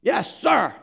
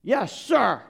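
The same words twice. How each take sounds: First: Higher, louder crisp military reply; a loaded yes sir with hidden contempt; enlisted man answering his captain with a loaded yes sir; deadpan yes sir. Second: Higher, louder crisp military reply; mock obedient yes sir. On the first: Retold or imitated. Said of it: "looks him in the eye and says". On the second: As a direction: snap it out like a dutiful soldier. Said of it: "you just look him in the eye and you say".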